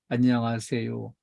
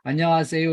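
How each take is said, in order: First: The greeting is mumbled and barely audible. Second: The greeting is said clearly and audibly. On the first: The greeting is made without any sincerity. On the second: The greeting is made in earnest.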